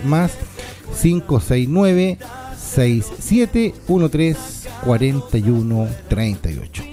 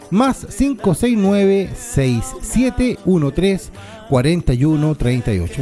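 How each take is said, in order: First: The number is said more slowly. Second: The number is said at normal speed.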